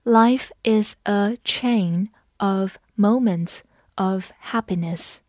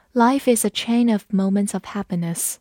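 First: Slow, careful classroom read-aloud; slow model reading for students. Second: Said in the usual way. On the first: Shown as a demonstration. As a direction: read it slowly, word by word. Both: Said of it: "好，我们慢读一遍。".

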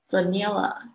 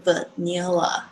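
First: Vanilla said fuh-NELL-uh; wrong pronunciation. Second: Vanilla with a clear ee, vuh-NILL-uh; correct pronunciation. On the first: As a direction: Vanilla with the common mistaken vowel. (Vanilla念成常见的错误发音) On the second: (vanilla中间念成ee的正确发音) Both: Shown as a demonstration. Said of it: "大家常常会念错这个字".

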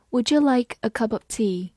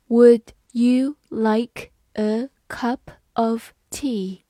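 First: "Would you" run together as "would-ju", "cup of" linked; linked natural reading. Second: Word by word, with gaps between words; slow reading. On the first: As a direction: say "Would you like a cup of tea" in one connected flow. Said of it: "这句话读快的时候注意两个点". (连读，一口气读完整句) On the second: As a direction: read it out slowly for learners. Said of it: "好，慢慢来读". (慢慢逐词朗读) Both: Shown as a demonstration.

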